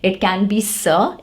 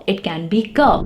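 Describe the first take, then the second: First: "sir" said as s plus a short schwa; soft C sound. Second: "K" said as k plus a short schwa, kuh; hard C sound. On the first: Teacher showing one of C's two pronunciations, soft s. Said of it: "can have two different pronunciations". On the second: Teacher showing C's other pronunciation, hard k. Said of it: "takes more stress on your throat". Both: Shown as a demonstration.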